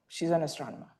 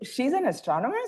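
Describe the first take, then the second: First: It sounds plain and matter-of-fact. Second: It sounds doubtful, like a disbelieving question.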